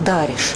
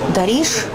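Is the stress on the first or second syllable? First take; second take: first; second. First: The stress is on the first syllable. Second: The stress is on the second syllable. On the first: This is the present-day stress. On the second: This is the older stress.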